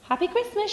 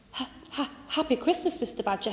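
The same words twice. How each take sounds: First: High, bright call of Christmas greeting; cheerful shout. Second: Shy, hesitant little mole, breathy start; timid greeting. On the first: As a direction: call it out merrily across the forest. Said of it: "shouted Squirrel". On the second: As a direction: nervously greet the grumpy neighbour. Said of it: "he said timidly". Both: Acted.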